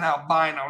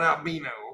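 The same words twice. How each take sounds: First: The middle syllable sounds like 'bye'. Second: The middle syllable sounds like 'bee'. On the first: The speaker calls it right. "it's fucking albino" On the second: The speaker calls it wrong. "not albino"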